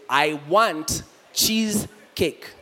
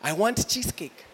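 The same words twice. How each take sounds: First: It is said slowly and carefully. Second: It is said at a normal speed.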